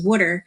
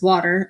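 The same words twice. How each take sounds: First: It is said in a Northeast Philly accent. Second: It is said in a Northeast PA accent.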